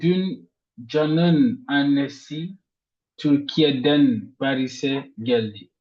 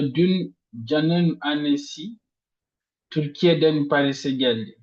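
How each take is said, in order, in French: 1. L'accent tombe sur le mot Türkiye'den. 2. L'accent tombe sur le mot annesi. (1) "on met l'intonation sur Türkiye'den" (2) "on met l'intonation sur la mère de Jean"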